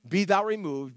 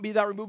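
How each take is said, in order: First: It is spoken at a slower, deliberate pace. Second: It is spoken at a normal, quicker pace.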